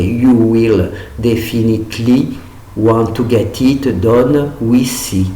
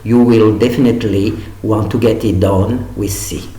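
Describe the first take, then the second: First: It is said with a French pronunciation. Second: It is said with an English pronunciation. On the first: The speaker calls it wrong. "en franchissant, ça ferait" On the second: The speaker calls it right. "le faire le plus correctement"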